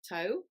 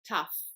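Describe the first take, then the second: First: The word ends in a vowel sound. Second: The word ends in an f sound. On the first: The speaker calls it wrong. "it's not pronounced toe" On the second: The speaker calls it right. "it's pronounced tough"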